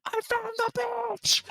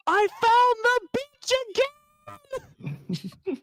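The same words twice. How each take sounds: First: Very high, strained far-off holler; thin, airy mock shout from another room; Rob. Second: Very high, drawn-out distant holler; slow, wailing imitation of a far-off shout; Rob. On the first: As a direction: imitate a yell coming from upstairs. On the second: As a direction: stretch out a mock yell from far away. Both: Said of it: "voice in the distance when he's upstairs".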